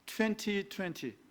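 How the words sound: It is said in a British accent. "제가 영국식 발음을 했어요"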